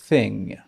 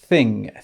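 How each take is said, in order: The two takes are said the same way.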